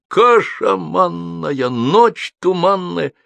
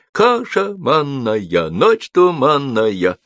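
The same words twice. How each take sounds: First: High, very drawn-out declamatory yell; bellowing. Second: High, slow, measured crowd chant. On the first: Joker performs his rhyme to the whole street, bellowing. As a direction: stretch each word in a raised, unnatural voice. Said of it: "ру почти не своим голосом". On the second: Applauding crowd repeats the joker's rhyme, chanting. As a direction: chant it in long even beats. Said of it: "аплодисменты становятся скандированными". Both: A narrator's reading.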